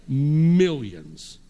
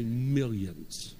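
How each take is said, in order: First: MILLIONS loud and drawn out; emphatic shout. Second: Said in the usual way. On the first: Shown as a demonstration. Preacher showing the congregation how big the debt is, emphatic shout. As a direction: boom out a long MILLIONS. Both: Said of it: "somebody say millions".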